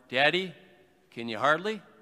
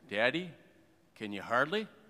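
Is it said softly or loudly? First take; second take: loudly; softly. First: It is said a little louder. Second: It is said at a normal, softer volume.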